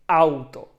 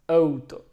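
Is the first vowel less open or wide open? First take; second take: wide open; less open. First: The first vowel is said with a wide-open mouth. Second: The first vowel is said with a narrow mouth. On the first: The speaker calls it right. "you have to open wide and say auto" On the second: The speaker calls it wrong. "not wide open, just auto"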